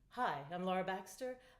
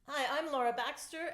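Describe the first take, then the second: First: The voice is driven by deep, calm breathing. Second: The voice is driven by shallow, high breathing. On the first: It keeps the audience calm. "And compare that to" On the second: It puts the audience into a state of stress. "while I breathe superficially"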